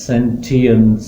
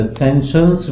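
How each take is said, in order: First: Sentience said with a t sound, sen-ti-ence; first pronunciation. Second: सेंशंस with a sh sound, sen-shens; second pronunciation. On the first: Teacher giving the students one accepted pronunciation, sentience with a t. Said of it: "sentience इसकी pronunciation है". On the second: Teacher giving the alternative pronunciation सेंशंस to the students. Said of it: "सेंशंस भी इसकी pronunciation है". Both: Shown as a demonstration.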